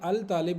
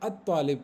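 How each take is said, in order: First: The article is said with a clear L sound. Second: The L merges into a doubled T sound. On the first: The speaker calls it wrong. "अल तालिब नहीं पढ़ना" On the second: The speaker calls it right. "अत तालिब पढ़ना है"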